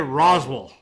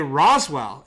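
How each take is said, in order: First: The name is pronounced loosely, without careful enunciation. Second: The name is pronounced clearly and carefully. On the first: The speaker is from the town. "If you're from Roswell, you say Roswell. They don't enunciate" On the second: The speaker is not from the town. "If you're not from Roswell, you say Roswell"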